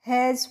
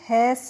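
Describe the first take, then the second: First: The word ends with a z sound. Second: The word ends with an s sound. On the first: The speaker calls it right. "इसीलिए इसको हम हैज पढ़ेंगे" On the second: The speaker calls it wrong. "हैस नहीं पढ़ेंगे"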